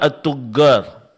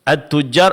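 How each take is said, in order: First: The doubled consonant is a hard 'g' sound. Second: The doubled consonant is a 'j' sound. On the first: The speaker calls it wrong. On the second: The speaker calls it right.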